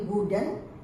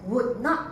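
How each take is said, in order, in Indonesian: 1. Kedua kata digabung menjadi satu kata singkat. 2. Dua kata terpisah diucapkan secara penuh.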